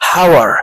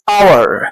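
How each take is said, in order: First: The word starts with an audible 'h' sound. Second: The word starts with a vowel, no 'h' sound. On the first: The speaker calls it wrong. "لو هننطقها في الطبيعة هنقول ايه؟" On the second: The speaker calls it right. "الاتش هنا سايلنت لا تنطق"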